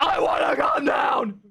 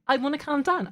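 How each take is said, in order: First: It is yelled loudly. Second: It is said calmly and quietly.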